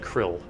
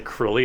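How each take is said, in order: First: The name has a short vowel, rhyming with 'ill'. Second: The name has two syllables, ending in 'ee'. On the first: "I always said Krill" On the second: "I'm just like, no. Don't like that"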